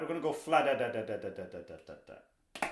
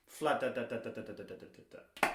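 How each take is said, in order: First: Vocalized drum rhythm. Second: Same soft fla da da da for the left hand, a touch quieter; vocalized drum rhythm. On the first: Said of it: "just try that". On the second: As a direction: scat the sticking evenly with no accent. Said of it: "Let's do it in the left hand". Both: Shown as a demonstration.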